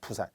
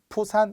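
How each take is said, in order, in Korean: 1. 첫 자음은 예사소리예요. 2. 첫 자음은 강한 거센소리예요.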